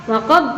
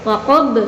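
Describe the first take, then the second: No difference in how they are said.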